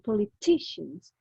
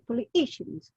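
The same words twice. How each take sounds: First: The T in the middle is clearly sounded. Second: The T in the middle is dropped. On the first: The speaker calls it right. "instead of saying politicians" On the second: The speaker calls it wrong. "People who speak English without actually saying the T"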